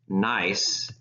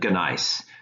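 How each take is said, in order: First: The word starts with an N sound. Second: The word starts with a hard G sound. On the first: The speaker calls it right. "the G is silent, so we pronounce this gneiss" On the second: The speaker calls it wrong. "rather than gneiss"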